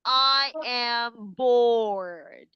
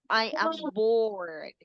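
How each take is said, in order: First: Very slow, dragged-out I am bored. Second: Slow, sighing I am bored. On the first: Teacher acting bored for the class, dragging every word. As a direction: drag it out like you have nothing to do. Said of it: "Next, we have". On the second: Teacher acting bored again, slow and droopy. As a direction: let it droop with nothing to do. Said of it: "So you are, mm". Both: Shown as a demonstration.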